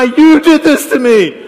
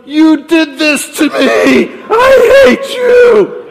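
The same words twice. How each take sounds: First: High, drawn-out shout of blame; mock yelled accusation. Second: Drawn-out high scream of blame, very loud; woman yelling in labor. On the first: Mary pointing at the sky to blame God, mock yelling. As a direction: hurl it loudly upward, hammed-up. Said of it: "pointing her finger at the sky". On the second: Retold or imitated. Woman down the hospital hall blaming her partner, yelled. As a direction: scream it slowly, full force, imitating a laboring woman. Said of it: "We heard the woman yelling".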